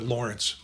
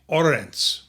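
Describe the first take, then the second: First: The name starts with a clear L sound. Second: The name starts with a vowel, no L. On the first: "let's get back to Lawrence" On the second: "or as they call him"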